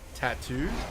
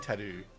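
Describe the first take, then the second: First: Both T sounds are pronounced strongly. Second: The second T sound is dropped. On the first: "Is it better if I if I overpronounce the T's?" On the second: "the secondary T is just silent"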